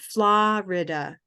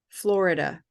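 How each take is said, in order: First: The stressed vowel is not R-colored. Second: The stressed vowel is R-colored, like 'or'. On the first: This is how many other speakers say it. "many people, they say Florida" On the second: This is how some speakers from one region say it. "For me, this is an orange word, Florida, and it's R controlled"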